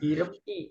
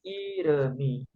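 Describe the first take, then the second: First: The final syllable is separated from the rest. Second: The final syllable is linked to the rest. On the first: The speaker calls it wrong. "bukan irem i" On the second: The speaker calls it right. "tapi iremi"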